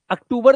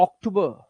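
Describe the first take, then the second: First: अक्टूबर as uk-TOO-bur, r sounded; high Hindi-style अक्टूबर; wrong Hindi-style form. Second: अक्टूबर as ock-TOO-buh; correct English form. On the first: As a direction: open अक्टूबर on a short "uh". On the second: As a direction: round first vowel, no final r in अक्टूबर. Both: Shown as a demonstration. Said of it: "अक्टूबर नहीं".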